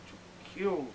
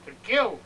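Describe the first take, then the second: First: To kill said softly under the breath; soft first to kill. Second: To kill punched higher and louder; louder second to kill; rising menace. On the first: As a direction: hold to kill back quietly. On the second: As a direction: let to kill burst out. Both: Acted. Lust awakening, building.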